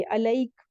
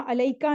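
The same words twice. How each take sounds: First: अलैक closed on a bare k; stopped ending. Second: अलैका ending in an open "aa"; unstopped form अलैका, vowel after the k; final vowel sounded. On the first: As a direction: end अलैक on the k, no vowel after. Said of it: "जहाँ रुकते हैं तो वहां अलैका नहीं पढ़ेंगे". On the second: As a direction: say अलैका with the last vowel voiced. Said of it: "अलैका नहीं पढ़ेंगे". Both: Shown as a demonstration.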